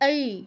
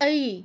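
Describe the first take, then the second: First: The vowel glides from a to i. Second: The same.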